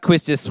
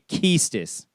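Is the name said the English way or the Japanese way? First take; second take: English; Japanese. First: The name is said the familiar English way. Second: The name is said the Japanese-intended way. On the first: This is how the hosts had been saying it. The speaker calls it wrong. "we got Quistis wrong all this time" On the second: This is what the developers intended. The speaker calls it right. "it's supposed to be Keistis"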